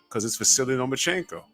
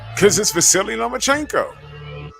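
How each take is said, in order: First: It is said in the speaker's ordinary voice. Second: It is said in a put-on imitated voice.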